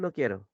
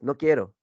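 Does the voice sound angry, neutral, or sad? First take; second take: neutral; angry. First: It is said in a calm, neutral tone. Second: It is said angrily, with more intensity. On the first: The speaker is in a normal mood. "Si estás normal, dices" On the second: The speaker is annoyed.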